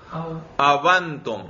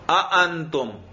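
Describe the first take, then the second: First: The second hamza is replaced by a w sound. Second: A long a is inserted between the two hamzas. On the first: "واو سے" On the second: "درمیان میں ایک اور الف لے آئیں"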